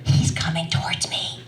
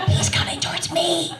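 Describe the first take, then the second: First: Acted breathy stage whisper; urgent whisper. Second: High, squeaky stifled alarm; mock panic. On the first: To her sister as the stranger approaches, urgent whisper. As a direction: whisper a secret warning into the phone. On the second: To her sister as the stranger nears, mock panic. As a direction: repeat it much higher, in comic panic. Repeats the panicked aside, higher.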